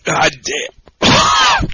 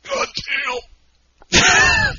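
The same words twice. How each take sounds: First: Strained croak after chugging; real gasp after downing the beer; choked groan. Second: Strained high croak of a gulp gone wrong; mock choked groan. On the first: Real, not acted. After chugging the beer, a choked groan. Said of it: "That's a good soundbite". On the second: Cohost mimics his choked groan after the drink. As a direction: imitate his gasping groan after chugging. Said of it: "That's a good soundbite. You're like".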